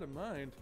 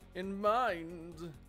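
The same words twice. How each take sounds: First: It is said with ordinary, flat intonation. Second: It is said with odd, exaggerated, jokey intonation. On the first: No pun is intended. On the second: The pun is presented as deliberate.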